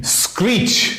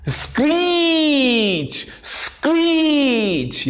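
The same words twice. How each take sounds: First: Said in the usual way. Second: High-pitched, long drawn-out "screech"; imitated screech. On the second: Shown as a demonstration. Teacher acting out the word's meaning, screeching it high and slow. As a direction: stretch "screech" into a screech, sliding down at the end. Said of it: "यानी चीख".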